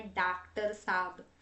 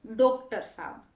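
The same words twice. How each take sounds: First: "डॉक्टर साहब" with a long aa, as daak-tar; Hindi spelling pronunciation. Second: "डॉक्टर साहब" with a closed o, as doktar; Gujarati pronunciation. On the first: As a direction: say "डॉक्टर साहब" as daaktar saab. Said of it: "जो गलत है". ("डॉक्टर साहब" को डाक्टर साब बोलें) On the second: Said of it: "जैसे हम गुजराती बोलते हैं". ("डॉक्टर साहब" को गुजराती ढंग से दोक्टर साब) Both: Shown as a demonstration.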